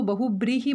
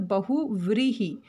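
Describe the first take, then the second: First: बहुब्रीहि said with a b sound in the second syllable, bahu-bree-hi; wrong pronunciation. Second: बहुव्रीहि said with a clear v sound in the second syllable, bahu-vree-hi; correct pronunciation. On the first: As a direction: demo the common mistake: बहुब्रीहि with b instead of v. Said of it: "कई लोग इसको बहुब्रीहि बोलते हैं". (गलत उच्चारण: बहुब्रीहि, दूसरे वर्ण में ब की ध्वनि) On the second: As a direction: model the right form: बहुव्रीहि with v, not b. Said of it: "ब नहीं आता". (सही उच्चारण: बहुव्रीहि, दूसरे वर्ण में व की ध्वनि) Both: Shown as a demonstration.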